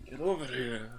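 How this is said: It is said in a slow, seductive way. It imitates the actor's sexy film delivery. "he was really sexy about it"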